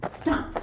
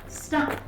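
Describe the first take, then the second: No difference in how they are said.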